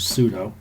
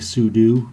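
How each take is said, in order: First: The word ends with a sound like 'dough'. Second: The word ends with a sound like 'do'. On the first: It follows the spelling of the word. "I pronounce the word as it is spelled" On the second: It follows the words super user do. "Some people say sudo because it's super user do"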